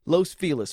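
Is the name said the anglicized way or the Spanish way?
anglicized. The name is said with anglicized pronunciation. The speaker calls it wrong. "it's incorrect Spanish"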